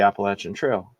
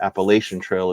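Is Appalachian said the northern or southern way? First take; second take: southern; northern. First: Appalachian is said the southern regional way. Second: Appalachian is said the northern regional way.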